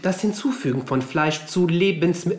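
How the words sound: It sounds like a station train announcement. The speaker calls it wrong. "das klang jetzt eher schon fast nach so einer Bahnansage"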